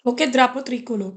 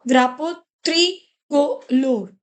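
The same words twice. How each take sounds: First: Said in the usual way. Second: "Drapo tricolor" drawn out slowly, each syllable clear; slow careful model. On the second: Shown as a demonstration. Teacher giving students a slow model, careful and drawn out. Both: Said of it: "it becomes dra".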